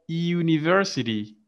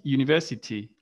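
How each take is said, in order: First: University in American English, with the R sounded. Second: University in British English, with no R sounded. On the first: Teacher modelling American university for the class. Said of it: "in American". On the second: Teacher modelling British university for the class. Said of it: "and in British". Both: Shown as a demonstration.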